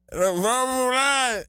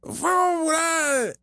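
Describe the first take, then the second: First: Higher, slow chant; mock rally shout. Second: Much higher, slow proud chant; chanted, shout it like a triumphant rally cry; mock rally chant. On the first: Imitating her party cheer again, higher, slow and shouted. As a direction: belt the slogan like a rally. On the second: Chanted, imitating her botched party cheer, high and slow. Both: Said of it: "ella pensó que se la comió".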